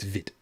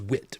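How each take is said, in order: First: The word begins with a V sound. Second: The word begins with a W sound. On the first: "I'm going with the German pronunciation" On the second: "It says wit"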